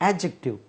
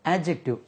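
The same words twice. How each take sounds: Both takes have the same delivery.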